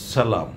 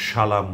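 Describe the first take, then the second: First: সালাম said with a sharp hissing English s; hissing s sound. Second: সালাম said as shalam, with a hushing sh; wrong sh sound. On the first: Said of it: "আমরা বলছি". (সালাম ইংরেজি s-এর মতো তীক্ষ্ণ স) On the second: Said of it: "আমরা কিন্তু সালাম বলছি না". (সালাম শ দিয়ে, শালাম) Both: Shown as a demonstration.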